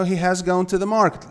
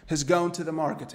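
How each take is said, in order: First: Said in the usual way. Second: "He's gone" with "has" shrunk onto "He"; contracted "has". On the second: Shown as a demonstration. Teacher showing students the short form, "He's" contracted. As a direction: run "He's" together as one short syllable. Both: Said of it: "quando você coloca na forma contracta".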